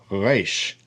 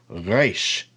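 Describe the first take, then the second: No difference in how they are said.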